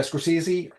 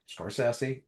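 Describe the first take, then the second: First: Scorsese said "skor-SEE-zee", pitched higher; common pronunciation. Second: Scorsese said "skor-SESS-ee"; corrected pronunciation. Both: Shown as a demonstration. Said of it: "But he says Scorsese".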